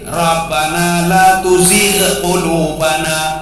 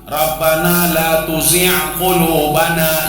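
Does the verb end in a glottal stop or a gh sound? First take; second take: gh sound; glottal stop. First: The verb ends with a throaty gh sound. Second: The verb ends with a glottal catch. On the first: Do not make our hearts waver after guiding us. The speaker calls it right. "Yang betul Rabbana la tuzigh" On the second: Do not pull out our hearts after guiding us. The speaker calls it wrong. "yang salah ya"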